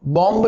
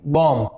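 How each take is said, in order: First: बॉम्ब with the final b sounded; wrong reading of bomb. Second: बॉम्ब as "bom", low, ending on m; correct bomb. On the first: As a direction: release a clear b after the m in बॉम्ब. (बॉम्ब, आख़िरी ब बोलकर गलत उच्चारण) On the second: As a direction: say बॉम्ब with the final B silent. (बॉम्ब को "बॉम" बोलें) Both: Shown as a demonstration. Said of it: "बॉम्ब नहीं".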